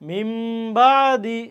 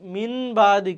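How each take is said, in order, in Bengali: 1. n ধ্বনিটি m ধ্বনিতে পরিবর্তিত হয়। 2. n ধ্বনিটি n ধ্বনিই থাকে। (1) "এর জন্য আমরা কি বললাম" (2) "মিন বাদি কিন্তু না"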